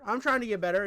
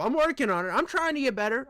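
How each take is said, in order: First: Said in the usual way. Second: Trying Trump voice. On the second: Pretend. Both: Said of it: "I wanna get my Trump down".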